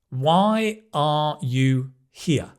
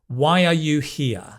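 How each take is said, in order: First: The words are separate with no linking glide. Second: A glide sound links the words together.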